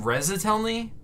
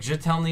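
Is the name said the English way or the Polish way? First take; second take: English; Polish. First: The name is said with an English-like start. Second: The name is said with a Polish-like start. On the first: "I pronounce my name Rezatelny" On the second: "Jetelny is probably closer to the actual Polish pronunciation"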